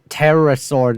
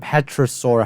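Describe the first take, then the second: First: The word begins with 'teh-ro', silent p. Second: The word begins with 'peh-tro', p sounded. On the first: The speaker calls it right. "That's pterosaur" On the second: The speaker calls it wrong. "not petrosaur"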